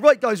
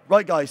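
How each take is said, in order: First: It is said with high, excited energy. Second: It is said flatly, with low energy. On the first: The players feed off the coach's energy. The speaker calls it right. "I'm really pumped and excited" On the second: The coach gives the players nothing to feed off. The speaker calls it wrong. "I'm flat"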